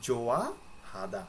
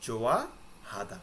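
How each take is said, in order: No difference in how they are said.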